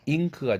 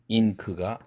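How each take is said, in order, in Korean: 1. k 앞의 비음은 ng입니다. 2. k 앞의 비음은 그냥 n입니다.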